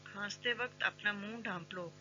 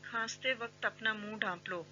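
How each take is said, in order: Both takes have the same delivery.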